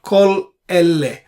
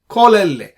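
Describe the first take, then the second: First: A gap separates the two words. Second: The two words run together without a gap. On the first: The speaker calls it wrong. "It's not kol elle. you should not give much gap" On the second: The speaker calls it right. "pronounce both the words together very rapidly without much gap"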